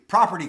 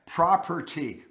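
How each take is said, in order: First: Said in the usual way. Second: "Property" sounded out slowly, syllable by syllable; careful pronunciation. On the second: Shown as a demonstration. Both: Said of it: "This is my accent".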